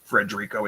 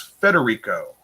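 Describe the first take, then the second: First: An R sound follows the first F. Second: No R sound follows the first F. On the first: The speaker calls it wrong. "It's not Frederico" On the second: The speaker calls it right. "it's Federico"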